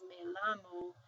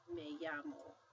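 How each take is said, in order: First: The double L sounds like an L. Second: The double L sounds like a Y. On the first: The speaker calls it wrong. "we don't pronounce that as me llamo" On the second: The speaker calls it right. "We pronounce that word as me llamo"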